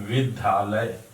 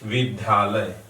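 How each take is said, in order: The two takes are said the same way.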